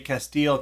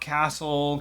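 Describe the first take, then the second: First: It is not said like English castle. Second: It is said like English castle. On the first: The speaker calls it right. "I'm sure I said that wrong in the short" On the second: The speaker calls it wrong. "not Castle"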